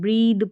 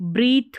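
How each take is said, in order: First: The word ends with a voiced th sound. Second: The word ends with a voiceless th sound. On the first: The speaker calls it right. "ब्रीद पढ़ेंगे, ब्रीद द द sound रहेगा टी एच का" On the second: The speaker calls it wrong. "इसको ब्रीथ नहीं पढ़ेंगे"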